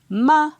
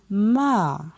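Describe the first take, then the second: First: It is said on a high tone. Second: It is said on a falling tone. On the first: "Ton haut" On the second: "Ton descendant"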